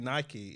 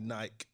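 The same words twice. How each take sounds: First: It is pronounced the American way. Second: It is pronounced the British way. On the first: "and they say Nike" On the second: "In the UK we say Nike"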